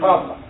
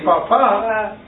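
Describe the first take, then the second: First: The stress is on the first syllable. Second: The stress is on the last syllable. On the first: "It's written the same way" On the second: "if you say Papa, now it's none of these. Now it's going to be Father"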